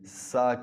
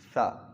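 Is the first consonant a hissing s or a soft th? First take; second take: hissing s; soft th. First: The first consonant is a hissing s. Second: The first consonant is a soft th. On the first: The speaker calls it wrong. "सीटी की आवाज़ नहीं आनी चाहिए, सा की आवाज़ नहीं" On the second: The speaker calls it right. "बल्कि सा"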